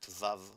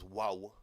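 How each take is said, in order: First: The word begins and ends with a V sound. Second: The word begins and ends with a W sound. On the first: This is the modern pronunciation. "In modern Hebrew we pronounce it vav" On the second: This is the ancient pronunciation. "but in ancient it was wow"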